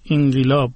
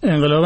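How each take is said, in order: First: The first vowel sounds like 'i'. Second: The first vowel sounds like 'e'.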